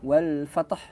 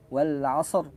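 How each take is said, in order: First: "wal fatah" with an extra vowel after the t; wrong pronunciation. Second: "wal asr" ending cleanly on ra; correct pronunciation. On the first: (bacaan salah "wal fatah" dengan vokal tambahan) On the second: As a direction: say "asr" with no added vowel. (bacaan benar "wal asr" tanpa vokal tambahan) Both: Shown as a demonstration. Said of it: "Jadi bukan".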